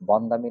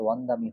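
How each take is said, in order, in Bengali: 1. শব্দটি 'b' ধ্বনি দিয়ে শুরু হয়। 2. শব্দটি 'w' ধ্বনি দিয়ে শুরু হয়। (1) "বন্দামি না হয়ে" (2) "ব থাকলে ওয়া হবে"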